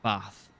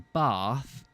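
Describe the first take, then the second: First: It is said in a northern English accent. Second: It is said in a posh southern accent.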